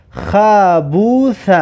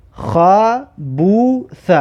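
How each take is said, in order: First: Slow, joined syllables with long vowels; drawn-out reading. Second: Very slow, pausing between syllables; syllable-by-syllable reading. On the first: Teacher reads an example word to learners, slow and drawn out. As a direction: stretch "خبوث" out in one slow run. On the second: Teacher repeats the example word for learners, very slowly split up. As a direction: break "خبوث" into three separate long syllables. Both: Shown as a demonstration.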